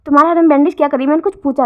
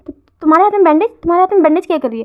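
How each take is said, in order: First: Louder, very fast insistent repeat; stern demand. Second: Higher, louder, fast alarmed question; shocked question. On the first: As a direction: press hard for an answer, no more dodging. Repeats question, demanding answer. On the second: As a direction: blurt it out in alarm at the bandages. Lover notices bandaged hands. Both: Acted.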